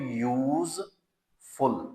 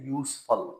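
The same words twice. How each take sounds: First: The middle consonant is a buzzing z sound. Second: The middle consonant is a hissing s sound. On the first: The speaker calls it wrong. "Not" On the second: The speaker calls it right. "ये पेशवाओ scene"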